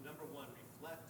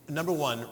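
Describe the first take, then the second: First: "number one, reflect" much softer, fading out; too quiet. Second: "number one" said louder, projected again. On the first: Dropping her voice before correcting herself to be heard. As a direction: let "number one, reflect" slip out far too softly. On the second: Reminding herself she has a big voice, says it louder. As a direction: bring "number one" back up to full voice. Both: Real, not acted. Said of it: "I have a big voice, I can just yell".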